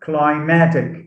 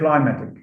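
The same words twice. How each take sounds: First: The stress is on the second syllable. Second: The stress is on the first syllable. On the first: The speaker calls it right. "stress is shifted from the first syllable to the second syllable" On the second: The speaker calls it wrong. "I've heard many teachers, I mean, school teachers, say climatic"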